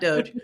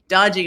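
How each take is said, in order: First: It is said as one syllable, ending in j. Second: It is said with two syllables, ending in ee. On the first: It is the group's official name. The speaker calls it wrong. "not doge" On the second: It mocks the group as shady. The speaker calls it right. "dodgy, not doge"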